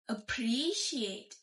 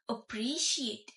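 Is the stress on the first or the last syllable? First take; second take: first; first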